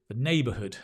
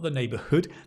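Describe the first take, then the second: First: The stress is on the first syllable. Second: The stress is not on the first syllable. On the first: The speaker calls it right. "Stress on the nay" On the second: The speaker calls it wrong.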